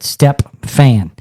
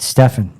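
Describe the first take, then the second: First: It is said with a p sound, like step-fan. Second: It is said without a p sound. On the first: This is how others say the name, following the misspelling. The speaker calls it wrong. "They pronounce it" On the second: This is the speaker's own way of saying the name. The speaker calls it right. "I pronounce it"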